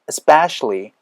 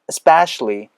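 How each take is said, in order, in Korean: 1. 첫 모음 소리가 분명하게 발음됩니다. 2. 첫 모음 소리가 분명하게 발음됩니다.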